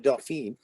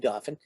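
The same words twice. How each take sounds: First: The word is given a French pronunciation. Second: The word is given a local English pronunciation. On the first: It refers to the French royal title. "the French pronunciation is the Dauphin" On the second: It refers to the local county name. "but here we say Dauphin"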